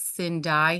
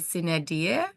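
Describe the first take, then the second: First: It is said with a local English pronunciation. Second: It is said with a classroom Latin pronunciation. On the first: "So I think it's sin die here" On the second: "I know I had Latin in school, so we would be"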